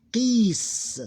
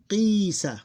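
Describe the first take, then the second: First: Qis high and loud, long vowel closed on S; closed ending. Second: Qisa high and loud, long "qii" then "sa"; open ending. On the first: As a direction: hold qis long and finish on a bare S. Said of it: "Here become". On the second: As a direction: stretch the "qi" of qisa, then short "sa". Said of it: "Here become qis". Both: Shown as a demonstration.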